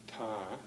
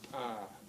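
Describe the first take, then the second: First: The consonant is a plain English-like t. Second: The consonant is released with a sharp pop. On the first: The speaker calls it wrong. "like in English, ... it's not right" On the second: The speaker calls it right. "The sound pops a little bit"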